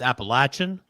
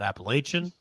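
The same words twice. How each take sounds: First: It is said the Southern way. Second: It is said the Midwestern way. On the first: The speaker calls it right. "it's Appalachian" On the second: The speaker calls it wrong. "I can tell you're from the Midwest"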